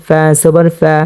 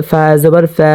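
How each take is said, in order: Both takes have the same delivery.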